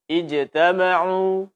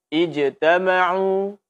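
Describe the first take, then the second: The two takes are said the same way.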